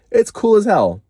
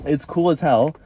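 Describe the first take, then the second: First: Higher and louder, thrilled; excited. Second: Said in the usual way. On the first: Real, not acted. Gushing to viewers about her tattoo, loud and thrilled.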